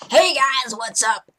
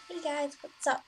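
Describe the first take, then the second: First: It is said loudly and excitedly. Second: It is said very quietly.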